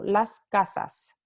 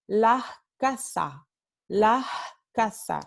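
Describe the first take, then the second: First: Las casas with every s clear; over-articulate las casas, all s sounds crisp; fully articulated. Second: La casa with the s breathed as h, slow; dramatic aspiration. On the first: Teacher demonstrating careful las casas. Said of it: "I'm pronouncing it all". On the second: Teacher exaggerating Andalusian aspiration, slowly. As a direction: stretch la casa, s turned into a breathy h. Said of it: "I'm slowing it down and doing it very". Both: Shown as a demonstration.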